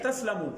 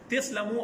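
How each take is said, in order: First: The first vowel is an 'a' sound. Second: The first vowel is an 'i' sound. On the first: This is the formal form of the verb. "हालांकि फेल है तस्लमू" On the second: This is the everyday spoken form. "तो वो बोलने के लहजे में जबर को जेर दे दी"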